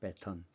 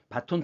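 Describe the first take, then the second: First: The word is said as 'bae-teon'. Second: The word is said as 'ba-ton'. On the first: The speaker calls it right. "표준어는 배턴입니다" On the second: The speaker calls it wrong. "우리가 보통 얘기할 때 발음할 때 바톤 터치 이렇게 얘기하는데 바톤이 아니고"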